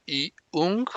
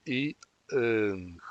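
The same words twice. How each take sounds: First: "iung" with a rounded u in the second syllable; the mistaken version, slowly; wrong vowel. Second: "iung" with an unrounded vowel, not u, before ng; the correct version, slowly; right vowel. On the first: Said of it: "que la E de la segunda sílaba no suene como U". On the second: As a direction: keep the lips spread on the second vowel. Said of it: "sino en su lugar". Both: Shown as a demonstration.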